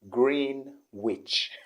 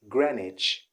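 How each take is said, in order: First: The W sound is pronounced in the middle. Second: The W sound is left out entirely. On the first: The speaker calls it wrong. "He always called it Greenwich" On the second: The speaker calls it right. "the W isn't pronounced"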